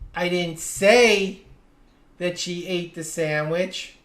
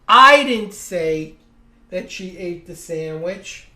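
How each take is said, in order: First: The stress falls on the word "say". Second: The stress falls on the word "I". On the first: It was implied but never actually said. "I may have implied it, but I never actually said it" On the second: Someone else said it. "Someone said it, but it wasn't me"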